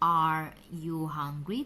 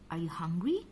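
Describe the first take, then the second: First: The word are is said long and full. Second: The word are is short and weak. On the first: The speaker calls it wrong. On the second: The speaker calls it right.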